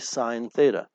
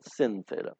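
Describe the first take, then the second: First: The first word is said in full. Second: The first word is said in shortened form. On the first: The speaker calls it right. "we say sine theta" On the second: The speaker calls it wrong. "We don't pronounce it sin theta"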